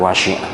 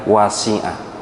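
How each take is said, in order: First: The word is said with an sh sound. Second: The word is said with a plain s sound. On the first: The speaker calls it wrong. "bukan wasi'a; dibaca wasi'a pakai shin, itu salah" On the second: The speaker calls it right. "Tolong dibetulkan di wasi'a"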